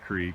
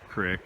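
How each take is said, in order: First: The word has a long 'ee' vowel. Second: The word has a short 'i' vowel. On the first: "Crick or creek, however you want to pronounce it" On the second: "Crick or creek, however you want to pronounce it"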